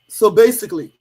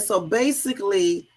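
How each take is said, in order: First: It is said in a put-on dude voice. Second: It is said in the speaker's normal voice.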